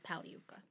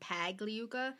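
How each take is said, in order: First: The name is pronounced the original Italian way. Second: The name is pronounced the American way. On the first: "the original pronunciation of the word" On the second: "they Americanized it"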